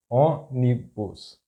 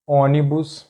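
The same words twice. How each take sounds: First: Ônibus slowly split, ô - ni - bus; syllable by syllable. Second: Ônibus as one word, stressed on the first Ô; stress on accented syllable. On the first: Teacher breaking down an example word, ônibus slow in syllables. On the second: Teacher giving an example word, ônibus stressed on first syllable. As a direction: say ônibus joined up, leaning on the opening Ô. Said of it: "the stressed syllable is that one". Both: Shown as a demonstration.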